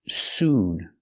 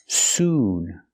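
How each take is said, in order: No difference in how they are said.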